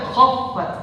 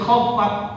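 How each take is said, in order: First: The final t has an audible breathy release. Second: The final t has no breathy release. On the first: The speaker calls it right. "harus ada sifat hams" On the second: The speaker calls it wrong. "Nggak ada sifat hams di situ"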